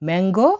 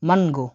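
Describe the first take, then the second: First: It is pronounced the English way. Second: It is pronounced the Russian way. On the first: "ম্যাঙ্গো ইংরেজিতে" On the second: "রাশিয়ানে হলো মানগো"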